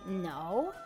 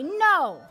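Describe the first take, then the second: First: It sounds doubtful, like well or yes. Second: It sounds like a plain, firm no.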